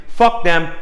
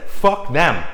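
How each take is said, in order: First: Fuck them, punched higher and louder; louder defiance. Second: Said in the usual way. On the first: Shown as a demonstration. Showing his energy on the deal, fuck them louder. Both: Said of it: "This is my energy".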